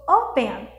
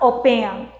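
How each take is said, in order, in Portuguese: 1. A tônica está na primeira sílaba. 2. A tônica está na segunda sílaba. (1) "a primeira é a mais forte" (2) "Eu não falo open"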